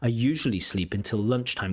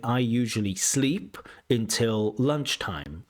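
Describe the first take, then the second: First: The word lunchtime carries the main stress. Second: The word sleep carries the main stress. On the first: The speaker calls it right. "I would put the stress on lunchtime" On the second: The speaker calls it wrong. "You're saying"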